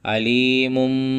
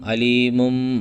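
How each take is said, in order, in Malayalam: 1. ഈ വാക്ക് m ശബ്ദത്തിലാണ് അവസാനിക്കുന്നത്. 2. ഈ വാക്ക് m ശബ്ദത്തിലാണ് അവസാനിക്കുന്നത്.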